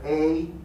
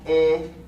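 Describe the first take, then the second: First: The vowel glides upward like a diphthong. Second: The vowel stays steady without gliding upward. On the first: The speaker calls it right. "but rather A ... We call this diphthongization" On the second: The speaker calls it wrong. "we do not pronounce E"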